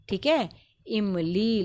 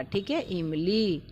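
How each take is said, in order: First: इमली said slowly with long ई; drawn-out word. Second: इमली slow, long ई held; drawn-out word. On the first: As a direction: stretch the ली in इमली. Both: Shown as a demonstration. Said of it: "खींच कर बोल रहे हैं".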